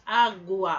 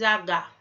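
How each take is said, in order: First: The U sound is clearly heard. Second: The U sound is left out. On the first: The speaker calls it right. "a gente escuta o U e o A" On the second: The speaker calls it wrong. "a gente não diz"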